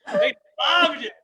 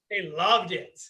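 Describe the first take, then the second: First: Excited repeat. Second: Said in the usual way. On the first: Real, not acted. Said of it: "repeated louder". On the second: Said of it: "repeated for emphasis".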